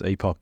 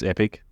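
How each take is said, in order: First: The word ends with a full 'ock' sound. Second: The word ends with a short 'ick' sound. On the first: This is how the speaker's own country says it. "but for us, it's epoch" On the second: This is the North American way to say it. "it's the Canadians and the Americans, it's epic"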